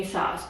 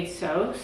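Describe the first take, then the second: First: "asos" said ay-soss, short open o; British-style asos. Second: "asos" said ay-sohs, long o; American-style asos. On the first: Quoting British YouTubers' brand name, "asos" as ay-soss. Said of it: "YouTubers that I watch are British". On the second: Asking how an American says it, "asos" as ay-sohs. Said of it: "Or as an American". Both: Shown as a demonstration.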